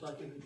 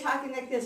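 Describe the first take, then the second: First: The voice sounds tired and strained. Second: The voice sounds fresh and clear. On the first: It is the end of a long day. "by the end of the day, you're kind of talking like this" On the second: It is the start of the day. "You start out your day talking like this"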